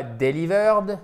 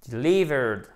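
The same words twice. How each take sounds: First: "delivered" mal accentué, appuyé sur la première syllabe; mauvaise prononciation. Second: "delivered" stressed on LI, short first I; bonne prononciation. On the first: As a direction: say "delivered" wrongly, stressing DE. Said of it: "ça se dit non pas delivered". (« delivered » accentué à tort au début) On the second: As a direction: lean on the LI of "delivered". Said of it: "ça se dit non pas delivered, mais". (« delivered » accentué sur LI) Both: Shown as a demonstration.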